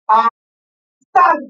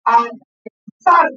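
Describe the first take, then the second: First: "Analizar" slow, leaning on the final "zar"; teacher stressing the tonic syllable of "Analizar". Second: "Analizar" drawn out slowly; teacher modeling "Analizar" at half speed; slow syllable demo. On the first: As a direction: land hard on "zar" in "Analizar". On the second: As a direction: say "Analizar" slowly so the class hears each syllable. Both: Shown as a demonstration. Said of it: "Escuchen toda la función".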